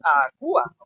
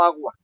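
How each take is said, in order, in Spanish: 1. La palabra se divide en tres sílabas. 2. La palabra se dice en dos sílabas. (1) "no puedo decir agua" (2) "¿cuántas sílabas tiene agua? A, gua"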